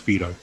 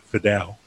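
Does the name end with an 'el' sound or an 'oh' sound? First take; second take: oh; el. First: The name ends with an 'oh' sound. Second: The name ends with an 'el' sound. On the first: The speaker calls it right. "it's pronounced Fido" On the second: The speaker calls it wrong. "he started pronouncing it Fidel"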